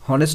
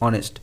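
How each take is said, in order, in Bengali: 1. শব্দটি h ধ্বনি দিয়ে শুরু হয়। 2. শব্দটি স্বরধ্বনি দিয়ে শুরু হয়। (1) "হনেস্ট নয়" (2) "উচ্চারণটা ভাওয়েল প্রোনাউন্সিয়েশন দিয়ে শুরু হচ্ছে"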